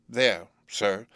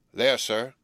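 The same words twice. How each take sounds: First: Put-on slightly hesitant, timid boy's answer. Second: Said in the usual way. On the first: A narrator's reading. Boy explains his mother's grave to the convict, mildly timid. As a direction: explain it carefully, a touch timidly. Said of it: "I timidly explained".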